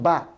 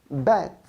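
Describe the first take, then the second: First: The vowel is an open 'a' sound. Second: The vowel is a short 'eh' sound. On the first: The speaker calls it wrong. "not bat" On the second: The speaker calls it right. "This is bat"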